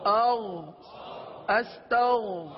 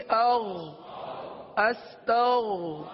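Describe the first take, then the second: Both takes have the same delivery.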